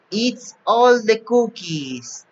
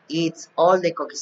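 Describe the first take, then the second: First: Higher, slow playful monster read; mock monster voice. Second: Said in the usual way. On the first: A narrator's reading. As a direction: ham up the greedy monster a little. Monster eats the cookies. (voz de monstruo juguetona)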